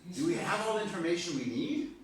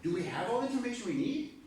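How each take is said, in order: First: The question sounds doubtful, hinting at a no. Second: The question sounds confident, hinting at a yes. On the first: The expected answer is no. "That was a no, right?" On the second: The expected answer is yes. "Yes, now you got it"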